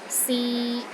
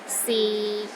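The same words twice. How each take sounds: First: The pitch stays steady in the middle. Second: The pitch stays low and steady throughout. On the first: It means try. "in the middle of your range and it is steady" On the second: It means is. "the sixth tone is low and steady, but not as low as the fourth tone"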